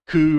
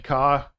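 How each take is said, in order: First: The letter ends in an oo vowel. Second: The letter ends in an ah vowel. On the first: "Ku, or I'm not sure exactly" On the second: "they say ka"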